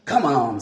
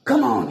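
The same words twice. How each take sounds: First: Said in the usual way. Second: High, loud urgent cry. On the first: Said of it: "said the leader". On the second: A narrator's reading. Escaping iguana urging his friends, high loud cry. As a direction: cry out to flee. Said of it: "he cried".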